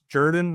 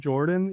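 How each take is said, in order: First: The name has a local Southern pronunciation. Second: The name has the usual standard pronunciation. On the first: The speaker calls it right. "it is pronounced Jordan ... that's a uniquely Columbus, Georgia, Southern thing" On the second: The speaker calls it wrong. "not Jordan"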